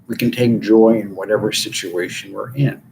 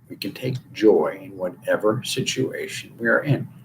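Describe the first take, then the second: First: It is said at a normal pace. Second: It is said slowly.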